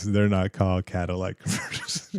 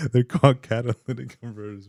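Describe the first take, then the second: First: "Cadillac converters" said as the wrong name, like the car brand; wrong word. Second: "catalytic converters" said as the right term, through a laugh; correct word, laughing. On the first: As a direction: set up "Cadillac converters" as the mistaken version. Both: Shown as a demonstration.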